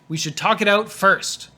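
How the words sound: The word first is said with strong stress. The speaker calls it right.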